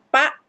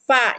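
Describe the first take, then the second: First: It begins with a p sound, no air. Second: It begins with an f sound, air escaping. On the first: The speaker calls it wrong. "bukan pak" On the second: The speaker calls it right. "tapi fa ... Jadi ada angin yang keluar"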